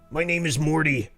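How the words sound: It is said in a Rick impression.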